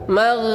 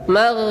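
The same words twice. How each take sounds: The two takes are said the same way.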